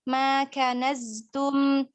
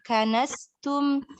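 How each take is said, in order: First: The consonant is a voiced z-sound. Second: The consonant is a voiceless s-sound. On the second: "nggak kita jaharkan, ya akan mirip seperti sin nanti"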